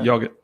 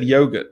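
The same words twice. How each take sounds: First: It uses the speaker's own family pronunciation. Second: It uses the common pronunciation of the word. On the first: It is inherited from a parent. "I pronounce it the way my dad always pronounced it" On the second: Others pronounce it this way. "that's not how I pronounce it"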